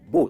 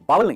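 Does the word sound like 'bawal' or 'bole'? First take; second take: bole; bawal. First: It is said as one syllable, like 'bole'. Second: It is said as two syllables, like 'bawal'. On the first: The speaker calls it right. "इसकी सही pronunciation है बोल" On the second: The speaker calls it wrong. "बावल नहीं"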